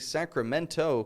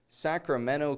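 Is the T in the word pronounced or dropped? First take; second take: pronounced; dropped. First: The T after the N is clearly pronounced. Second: The T after the N is dropped. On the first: The speaker calls it wrong. "I didn't say Sacramento" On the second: The speaker calls it right. "Did you hear that?"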